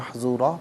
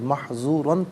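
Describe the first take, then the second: First: The word ends with a long plain vowel. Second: The word ends with an n sound. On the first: The reader stops at this word. "वफ़ की सूरत में महज़ूरा पढ़ा जाएगा" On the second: The reading continues without stopping. "महज़ूरन पढ़ेंगे"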